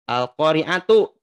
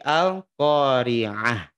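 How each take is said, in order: First: The word ends with a full tu syllable. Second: The word ends with a silent-vowel h sound. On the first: The speaker calls it wrong. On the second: The speaker calls it right. "tapi al-qari'ah"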